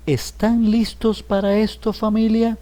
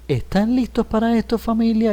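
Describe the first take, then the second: First: The s before the t is fully pronounced. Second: The s before the t is softened, half swallowed. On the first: This is the proper, careful way to speak. "The correct way to say, the very appropriate way to say" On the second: This is how people speak in everyday life. "in real life ... you like swallow the s"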